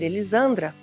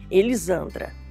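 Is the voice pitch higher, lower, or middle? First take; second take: higher; middle. First: The name is said at a higher pitch. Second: The name is said at a middle pitch. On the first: "o tom já subiu" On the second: "se eu falar o meu nome"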